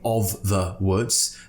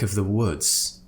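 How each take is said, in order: First: The word 'of' has a full, clear vowel. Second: The word 'of' is relaxed to a schwa. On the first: The speaker calls it wrong. "we're not saying" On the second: The speaker calls it right. "we'll pronounce of with a uh, a schwa sound"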